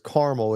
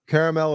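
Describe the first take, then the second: First: It uses the Illinois pronunciation of the word. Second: It uses the East Coast pronunciation of the word. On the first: "if you're in Illinois" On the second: "if you're from, I guess, the East Coast area"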